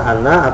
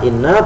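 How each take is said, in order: First: The first vowel is an 'a' sound. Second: The first vowel is an 'i' sound. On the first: "yang di fathah itu adalah far'un" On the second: "asalnya inna itu hamzanya di kasroh"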